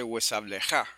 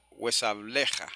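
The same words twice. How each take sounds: First: Huesableja stressed on the last syllable "ja"; wrong final stress. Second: Huesableja stressed on "ble"; penultimate stress. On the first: Teacher showing the mistaken accent, stress on last syllable. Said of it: "y no dice huesableja". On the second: Teacher showing correct Hebrew accent, stress on penultimate syllable. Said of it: "Ahora es una palabra llana". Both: Shown as a demonstration.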